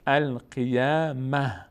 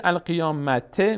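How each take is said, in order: First: القیامه very slowly, ending on a breathed h; pausal h ending. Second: القیامته with the ت clearly sounded; final t pronounced. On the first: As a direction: stop on القیامه with ه instead of t. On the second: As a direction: say القیامته with a t before the ending. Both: Shown as a demonstration.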